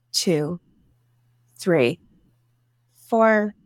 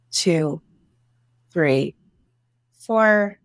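No difference in how they are said.

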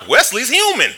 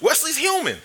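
First: Loud, high, amazed declaration; a sudden discovery thrown out loud; excited exclamation. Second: Much higher, thin, almost falsetto; high squeaky repeat. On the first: Realizes the bully can be beaten. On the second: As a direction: squeak the discovery out in disbelief. Repeats the realization. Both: Retold or imitated.

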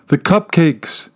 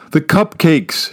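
First: Calling after him. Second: Mild sobbing shout. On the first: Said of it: "she calls after him". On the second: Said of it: "she shouts again, sobbing now". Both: A narrator's reading.

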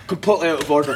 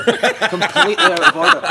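First: Mild mock outrage; retold disapproval. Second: High, loud, drawn-out retold outrage; mock outrage. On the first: Goalie judging the penalty spot prank, mildly outraged. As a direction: voice a teammate's verdict in a nearly usual voice. Sandy disapproves, first take. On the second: Goalie condemning the penalty spot prank, hammed-up outrage. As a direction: repeat the verdict slower and far higher, appalled.

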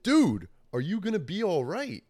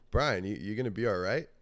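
First: High, loud, emphatic question; insistent repeat. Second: Said in the usual way. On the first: Retold or imitated. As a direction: press the question on someone dazed. Repeats question after dazed huh.

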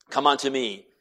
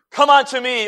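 First: Said in the usual way. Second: High, loud, ringing call; ringing preached call. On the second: Acted. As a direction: proclaim it over the congregation. Preached quote of Christ.

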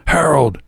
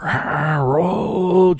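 First: High, short yell of a name; high-pitched summons. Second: Long, drawn-out high screech; high screamed summons; shriek. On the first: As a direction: call him out sharply from the doorway. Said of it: "with hands on hips and yelled". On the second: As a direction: stretch the name into a hair-curling scream. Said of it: "let out a shriek". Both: A narrator's reading.

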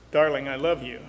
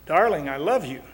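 First: Flat, slightly low declaration of love; flat delivery. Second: More feeling, with a lift on love; warmly stressed declaration of love; heartfelt declaration. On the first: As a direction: say it evenly, with no feeling put into it. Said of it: "but it's rather flat". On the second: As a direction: say it like you mean it. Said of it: "it's rather flat". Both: Shown as a demonstration.

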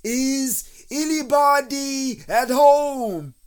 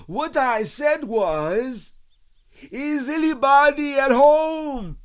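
First: High, loud, drawn-out call. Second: High, slow, emphatic holler; insistent loud bear call. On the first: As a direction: holler it slowly into a hole. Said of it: "and called out". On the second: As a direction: repeat it at full volume, word by word. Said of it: "called out Pooh very loudly". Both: A narrator's reading.

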